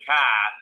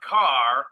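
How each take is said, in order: First: It is said with a Boston accent. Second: It is said with a plain, non-Boston accent.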